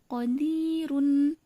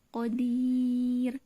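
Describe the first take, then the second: First: The word ends with a vowel and n. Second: The word stops on the final r sound.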